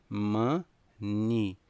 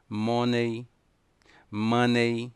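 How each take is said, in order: First: "money" said as ma-ni; "money" with an unstressed short ending; correct money. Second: "money" said as mo-ney and ma-ney; "money" said the Brazilian way; wrong money. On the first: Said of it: "O correto é dizer". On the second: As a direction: mispronounce "money" twice. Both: Shown as a demonstration.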